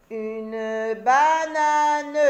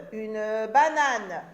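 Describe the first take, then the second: First: Banane étiré, plus fort; découpe banane en syllabes, très lentement; très lent, syllabé. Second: Said in the usual way. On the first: Shown as a demonstration. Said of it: "syllabé puis normal". (dire « une banane » syllabe par syllabe) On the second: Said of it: "repris normalement".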